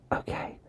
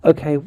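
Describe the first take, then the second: First: Soft unvoiced whisper; whispering on the phone. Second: Said in the usual way. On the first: Real, not acted. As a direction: hush it right down. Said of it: "I have to whisper".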